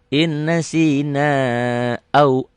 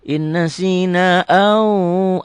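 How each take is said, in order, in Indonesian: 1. Vokal akhir dibaca pendek. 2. Vokal akhir dibaca panjang. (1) "Ini enggak panjang ya" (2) "jangan jangan inna sina au. Au dari mana? Panjang dari mana?"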